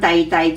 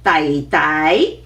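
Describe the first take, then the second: First: Both syllables are said on a low level tone. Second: The second syllable is said with a rising tone. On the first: "so from 弟弟" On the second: "usually we raise the tone of the second one"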